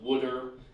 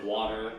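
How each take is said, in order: First: It is said in a Philadelphia accent. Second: It is said in a standard accent. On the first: "she's got the Philly accent. She says uh, "wooder"" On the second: "instead of"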